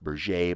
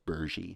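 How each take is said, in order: First: The name ends like the word burger. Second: The name ends with an ee sound. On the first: This is how outsiders commonly say it. The speaker calls it wrong. "You'll hear it pronounced Berger" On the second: This is how the family said their own name. The speaker calls it right. "but they called themselves Bergy"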